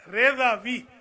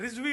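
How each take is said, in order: First: The name has three syllables, Re-za-vi. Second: The name has two syllables, Riz-vi. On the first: The speaker calls it right. "असल है रेजावी" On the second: The speaker calls it wrong. "रिजवी गलत है"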